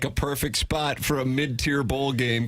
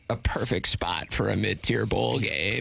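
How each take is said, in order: First: It is read in a normal voice. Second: It is read with creaky vocal fry.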